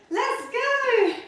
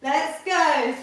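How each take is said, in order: First: Pitched way up, bursting with energy; excited let's go. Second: Said in the usual way. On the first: Real, not acted. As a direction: fire the class up into the set. Coach launching a set.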